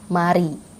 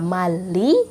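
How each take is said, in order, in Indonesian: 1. Konsonan di tengah itu bunyi R. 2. Konsonan di tengah itu bunyi L. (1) "tapi mari" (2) "Bukannya mali"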